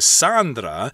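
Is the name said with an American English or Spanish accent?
Spanish. The name is said with a Spanish pronunciation.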